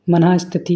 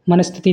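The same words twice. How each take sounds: First: मनः स्थिति as "manah sthiti"; visarg sounded. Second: मनस्थिति as "mana-sthiti", no "ha"; visarg dropped. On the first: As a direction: split मनः स्थिति with a "ha" after मन. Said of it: "मनः स्थिति होता है". (मनः स्थिति में विसर्ग अलग से सुनाएँ) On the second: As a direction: run मनस्थिति together without a visarg. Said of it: "मनस्थिति नहीं". (मनस्थिति बिना विसर्ग के बोलें) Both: Shown as a demonstration.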